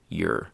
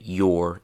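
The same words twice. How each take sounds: First: The word has a short reduced vowel. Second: The word has a long full vowel. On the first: "into your" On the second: "We changed the your"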